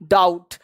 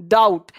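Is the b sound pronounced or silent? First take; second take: silent; silent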